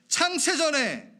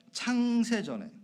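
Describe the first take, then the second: First: High, loud, drawn-out 창세전에; emphatic proclamation. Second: Said in the usual way. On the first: Real, not acted. Preacher rereading the verse to the congregation, emphatic proclamation.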